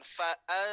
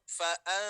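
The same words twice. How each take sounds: The two takes are said the same way.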